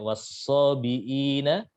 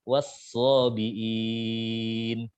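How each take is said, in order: First: The lengthened vowel is held for a short time. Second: The lengthened vowel is held for a long time. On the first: "dibaca dua harokat" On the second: "enam harokat"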